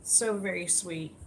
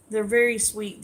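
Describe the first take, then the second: First: Tender. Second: A louder burst of praise, falling at the end; gushing. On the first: Streamer softly echoing thanks to kind viewers, tender and quiet. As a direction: murmur it fondly to yourself. Repeats praise after shout outs. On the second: Streamer gushing to viewers about their sweetness, louder. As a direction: say it out loud with delight. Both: Real, not acted.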